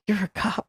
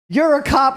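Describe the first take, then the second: First: High, soft wounded disbelief; hushed, pained imitation of a dismayed trooper; mock heartbroken. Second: High, forceful incredulous bluster; mock a cartoon trooper who can't believe it; raised-pitch blustering disbelief; Foghorn Leghorn. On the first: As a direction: say it small, like it hurts your heart. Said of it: "Like, it hurt his heart". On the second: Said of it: "he's Foghorn Leghorn as a human".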